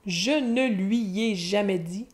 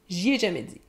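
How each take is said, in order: First: Lui is said in full. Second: Lui is reduced to a short y sound.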